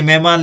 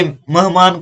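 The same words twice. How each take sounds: First: Second मेहमान said as "mehmaan"; e vowel in the first syllable of मेहमान; correct pronunciation. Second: First मेहमान misread as "mahmaan"; short a in the first syllable of मेहमान; wrong pronunciation. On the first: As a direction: say मेहमान as "meh-maan". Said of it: "ऐसे मेहमान लिखते हैं". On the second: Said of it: "ये मेहमान को". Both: Shown as a demonstration.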